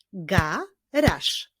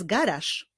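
First: GARAŻ in two separate beats, GA, RAŻ; teacher's measured GA... RAŻ; syllable by syllable. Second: Said in the usual way. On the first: Shown as a demonstration. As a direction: break "garaż" cleanly after GA. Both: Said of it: "wyklaskiwali sylaby w poszczególnych wyrazach".

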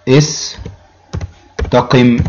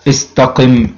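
First: استقم stretched sound by sound; teacher slowly dictating استقم; very slow drawn out. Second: Said in the usual way. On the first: Shown as a demonstration. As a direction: draw out استقم very slowly so students hear each letter. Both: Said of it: "نقول مثلًا إيه؟".

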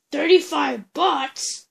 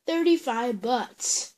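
First: Louder outraged echo of the price; indignant repeat, a bit louder; shocked question. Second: Said in the usual way. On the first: Pretend. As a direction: balk at the price.

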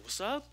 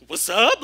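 First: Higher-pitched challenging question; mock confrontational, pitched up; retold challenge. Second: Loud, high-pitched comeback; comic mock-confrontational yell; retold comeback. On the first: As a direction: toss it out as a challenge. Retold challenge from a hostile youth. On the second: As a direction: fire it back much louder, pitched up. His own flustered comeback, retold.

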